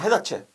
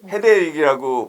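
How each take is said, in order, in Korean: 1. 이 단어는 ch 소리로 끝납니다. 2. 이 단어는 k 소리로 끝납니다. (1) "심지어는 해다체라고 발음을 하기도 합니다" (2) "헤드에이크를 헤드에이크라고 발음할 수 있는 사람이 많지 않습니다"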